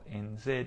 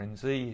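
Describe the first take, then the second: First: Z is said the non-American way, as zed. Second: Z is said the American way, as zee.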